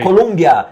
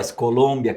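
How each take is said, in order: First: The second syllable has a u vowel. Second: The second syllable has an o vowel. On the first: This is how people in the United States say it. The speaker calls it wrong. "la gente en Estados Unidos" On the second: This is how Colombians say it. The speaker calls it right. "que los colombianos siempre dicen, es Colombia que se pronuncia"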